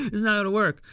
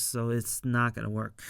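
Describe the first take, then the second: First: Not gonna work said again higher and louder, stressing "not"; laughing, punch "not" in "It's not gonna work"; playful echo, a bit higher and louder on "not"; amused emphatic repeat. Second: Said in the usual way. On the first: Shown as a demonstration. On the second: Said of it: "he realized".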